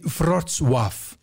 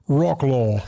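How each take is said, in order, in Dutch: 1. De naam wordt met een Poolse uitspraak gezegd. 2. De naam wordt met een Amerikaanse uitspraak gezegd. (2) "En niet zoals de Amerikanen zeggen"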